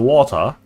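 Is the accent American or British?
British. It is said with a British accent.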